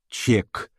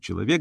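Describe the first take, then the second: First: The word is cut down to one syllable. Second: The word is said in full. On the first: "говорит «чек»" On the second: "вместо «человек» говорит «чек»"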